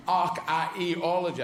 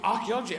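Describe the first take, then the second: First: Slow "archaeology", every middle vowel sounded; "archaeology" vowels separated. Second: Said in the usual way. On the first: Shown as a demonstration. Mocking the word's spelling, "archaeology" with vowels drawn out. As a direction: pull apart the vowels of "archaeology". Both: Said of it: "Archaeology's got three bloody vowels in the middle".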